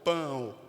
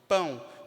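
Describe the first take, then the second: First: The word ends in a full O vowel. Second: The word ends in a weak U glide. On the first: The speaker calls it wrong. "Então não é pão" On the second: The speaker calls it right. "é pão"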